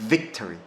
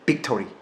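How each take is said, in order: First: The word begins with a v sound. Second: The word begins with a b sound. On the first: The speaker calls it right. "영어 사운드는 victory입니다" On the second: The speaker calls it wrong. "그걸 제가 B 사운드를 하면"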